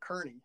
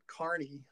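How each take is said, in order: First: The name sounds like 'Kearney'. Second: The name sounds like 'Carney'. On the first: This is how everyone else says it. "And everybody else pronounces it Kearney" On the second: This is how the family says it. "They pronounce it Carney, like a circus Carney"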